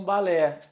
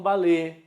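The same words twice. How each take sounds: First: "balé" with open final eh; open vowel. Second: "balé" with closed final ê; closed vowel. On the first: Teacher quoting one accepted variant, "balé" with open eh. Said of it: "Quando eu colocar o agudo". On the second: Teacher quoting the other accepted variant, "balé" with closed ê. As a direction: say the last vowel of "balé" narrow, like ay. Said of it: "Quando eu colocar o circunflexo". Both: Shown as a demonstration.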